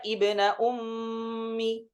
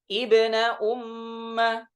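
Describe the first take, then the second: First: The last word ends with an 'i' vowel. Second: The last word ends with an 'a' vowel.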